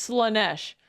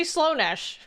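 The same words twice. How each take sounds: First: Said in the usual way. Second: Slaanesh imitated with a long O in the first syllable; mispronounced name. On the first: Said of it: "It's Slaanesh". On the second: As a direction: say Slaanesh with an OH, "SLOW-nesh". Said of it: "Why is he saying it like that?".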